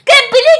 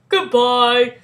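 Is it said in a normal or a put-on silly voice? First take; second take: put-on silly; normal. First: It is said in a silly alien voice. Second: It is said in a normal voice.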